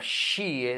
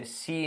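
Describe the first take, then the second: First: "she" with a hushed sh onset; proper sh. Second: "she" with a plain s, like see; learners' s-like error. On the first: Teacher gives the correct sound, proper sh. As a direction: start "she" with a full hush, not s. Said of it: "instead of". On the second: Teacher shows what learners tend to say, s-like error. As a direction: say "she" as see, losing the hush. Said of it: "porque tendemos a decir". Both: Shown as a demonstration.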